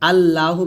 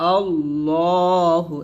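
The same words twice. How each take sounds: First: The L sound is thin and light. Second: The L sound is thick and heavy. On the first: The speaker calls it wrong. "আল্লাহু বলবেন না" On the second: The speaker calls it right. "এখানে লাফজুল লামটা মোটা হবে, আল্লাহু এরকম।"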